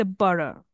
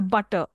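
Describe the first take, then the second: First: "butter" said as "budder"; flapped T. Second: Said in the usual way. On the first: Shown as a demonstration. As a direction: tap the T in "butter" like a quick D. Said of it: "they say it is a flap T". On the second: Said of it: "stress T properly".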